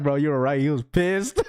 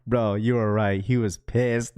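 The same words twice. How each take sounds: First: Said in the usual way. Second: A hint of a hushed, lower airport voice; imitating his voice. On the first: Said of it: "He's like". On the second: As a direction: mimic the friend whispering into the phone. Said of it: "the sound of his voice, just saying".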